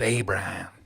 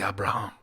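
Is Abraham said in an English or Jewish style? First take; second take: English; Jewish. First: It is said in the usual English style. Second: It is said in the claimed Jewish style. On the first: This is the way it had always been said. The speaker calls it wrong. "not Abraham" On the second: The speaker calls it right. "We say Abraham"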